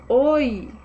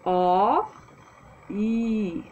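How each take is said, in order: First: The two vowels are said quickly, blended together. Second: The two vowels are said slowly and separately.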